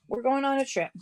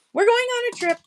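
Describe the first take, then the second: First: Said in the usual way. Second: Sing-song announcement. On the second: Pretend.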